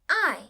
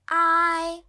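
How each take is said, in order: First: The pitch falls sharply from high. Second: The pitch stays high and level.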